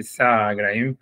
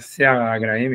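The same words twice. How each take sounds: First: "Sar" as one syllable with an A; written vowel reading. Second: "Sear" in two syllables, se-AR; expected vowel reading. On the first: Teacher reading what is marked, "Sar" in one syllable. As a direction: run "Sar" together as one open syllable. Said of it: "il y a marqué". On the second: Teacher giving the expected Hebrew form, "Sear" in two syllables. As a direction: sound both vowels in "Sear". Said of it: "on aurait dû dire". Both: Shown as a demonstration.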